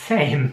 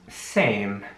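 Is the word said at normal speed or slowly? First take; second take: normal; slowly. First: The word is said at normal speed. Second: The word is said slowly and drawn out.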